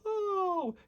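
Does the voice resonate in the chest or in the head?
head. It resonates higher, in the face. "You're going to feel them more up here"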